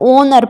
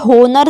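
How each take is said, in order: First: The word begins with a vowel sound. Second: The word begins with an h sound. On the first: The speaker calls it right. "हम यहाँ पर ओनर पढ़ रहे हैं" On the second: The speaker calls it wrong. "हम यहाँ पर होनर नहीं पढ़ रहे हैं"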